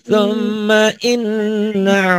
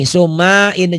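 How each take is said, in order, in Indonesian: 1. Bunyi n-nya ganda dan ditahan sengau. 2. Bunyi n-nya pendek dan tunggal. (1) "nunnya guna" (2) "Banyak orang yang baca gini, summa in jangan"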